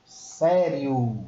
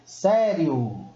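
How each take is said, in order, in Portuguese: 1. O o é forte; o i desliza fracamente. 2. O o é forte; o i desliza fracamente.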